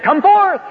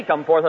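First: High, loud shout; booming command. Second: Said in the usual way. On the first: Retold or imitated. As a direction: shout a summons to all the dead. Hypothetical call to all the dead.

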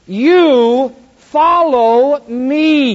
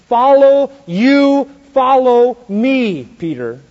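First: Very slow, loud stress on You; heavy slow emphasis on You; emphatic. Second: Very slow, louder, higher on Follow; slow deliberate command. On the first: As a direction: stretch out You follow me, hitting You hard. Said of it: "he uses the emphatic Greek". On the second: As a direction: draw out Follow and you follow me slowly. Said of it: "So the Lord said it slow". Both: Acted.

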